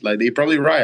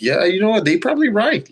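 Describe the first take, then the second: First: Said in the usual way. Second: Mock sarcastic agreement. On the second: Defiant retort to haters.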